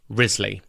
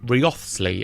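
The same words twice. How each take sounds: First: The name is not sounded out as spelled. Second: The name is sounded out as it is spelled. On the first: The speaker calls it right. "It is Wriothesley" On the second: The speaker calls it wrong. "its spelling would suggest that it's pronounced Wriothesley"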